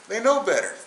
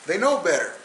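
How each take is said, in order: Both takes have the same delivery.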